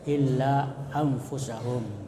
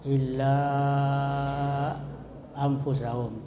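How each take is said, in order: First: The final vowel of illa is held briefly. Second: The final vowel of illa is drawn out long. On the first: "boleh juga dibaca seperti mad tabi'i" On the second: "lebih baik dipanjangkan seperti panjangnya mad wajib muttasil, yaitu dua setengah alif"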